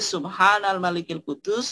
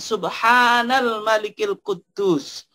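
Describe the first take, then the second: First: The phrase is said at normal length and pitch. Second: The phrase is lengthened and said with a raised voice.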